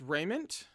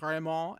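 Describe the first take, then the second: First: The word is pronounced in a plain English way. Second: The word is pronounced in a showy French way. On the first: The speaker calls it right. "I think it's raiment" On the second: The speaker calls it wrong. "go super pretentious in French and be like raiment"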